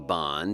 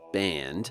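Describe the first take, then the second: First: It is said with a non-American vowel. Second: It is said with an American vowel.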